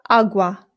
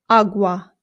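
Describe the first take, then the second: The two takes are said the same way.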